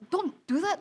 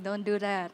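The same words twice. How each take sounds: First: It is said in an agitated, angry tone. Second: It is said in a calm, composed tone. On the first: The listener is less likely to pay attention. The speaker calls it wrong. "Compared to someone like" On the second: The listener is more likely to pay attention. The speaker calls it right. "you would listen more to someone that's like"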